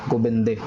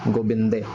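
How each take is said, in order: No difference in how they are said.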